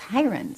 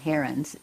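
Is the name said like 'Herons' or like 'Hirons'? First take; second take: Hirons; Herons. First: The name is said like 'Hirons'. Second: The name is said like 'Herons'. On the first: This is the family's own pronunciation. The speaker calls it right. "it's Hirons" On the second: This is the pronunciation the public adopted. The speaker calls it wrong. "our name really isn't Herons"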